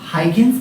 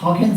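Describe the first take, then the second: First: The name begins with a 'high' sound. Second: The name begins with a 'haw' sound. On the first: The speaker calls it wrong. "It's not हाइगेन्स प्रिंसिपल" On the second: The speaker calls it right. "It's हॉकेंस प्रिंसिपल"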